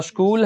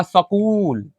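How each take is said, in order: First: स्कूल with s joined straight onto k; correct half-s pronunciation. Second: सकूल with a full "sa", drawn out slowly; children's mispronunciation. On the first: Teacher corrects the children, स्कूल as "askool" with half s. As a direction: say स्कूल as "askool", no vowel between s and k. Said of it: "क्योंकि आधा है". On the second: Teacher imitates many children misreading, सकूल as slow "sa-kool". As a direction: say सकूल as "sa-kool", a vowel after the s. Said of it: "ढेर बच्चा जो है क्या पढ़ेगा". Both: Shown as a demonstration.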